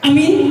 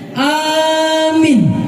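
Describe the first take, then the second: First: Both vowels are short. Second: The first vowel is long, the second short. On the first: "Depan pendek, belakang pendek" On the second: "A-nya panjang, ya-nya pendek"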